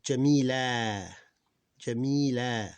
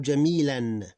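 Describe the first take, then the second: First: "Jamila" louder, long drawn-out final a; alif kept. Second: "Jamilan" louder, ending in -an; tanween ending. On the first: Teacher showing the alif is kept, long final a. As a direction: stretch the end a of "Jamila", no n. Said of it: "the one with the alif, we keep it". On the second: Teacher showing the tanween form, -an pronounced. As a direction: say "Jamilan" with a clear final n. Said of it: "But here with the tanween". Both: Shown as a demonstration.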